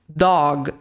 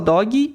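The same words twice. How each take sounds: First: The word ends cleanly on the final consonant. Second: An extra vowel sound follows the final consonant. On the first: The speaker calls it right. "um gringo, ele escuta a palavra como dog" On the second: The speaker calls it wrong. "erro do uso de um som extra no final de algumas palavras"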